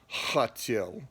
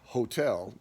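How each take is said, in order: First: The h is a rough sound from the throat. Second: The h is a light breathy sound. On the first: "but in Russian it would be hotel" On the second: "in English, we off, will say it as like hotel"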